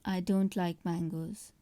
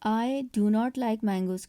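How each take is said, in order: First: The negative is said as one contracted word. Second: The negative is said as two full words.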